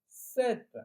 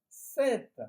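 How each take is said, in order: First: The final T sound is clearly pronounced. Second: The final T sound is clearly pronounced.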